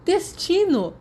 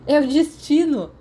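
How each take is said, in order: First: Even higher, loud delighted cry; excited exclamation. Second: Higher and louder, proclaiming it; excited declaration. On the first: James gleefully repeating his news about Lily, high and loud. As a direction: crow the word in triumph. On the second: James thrilled that Lily is also head girl, loud and high. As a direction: announce it like a grand revelation. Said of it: "James declarou". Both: A narrator's reading.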